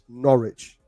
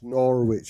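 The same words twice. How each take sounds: First: The middle W sound is left out. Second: The middle W sound is pronounced. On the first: The speaker calls it right. "silent W" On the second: The speaker calls it wrong. "You're gonna have to stop this"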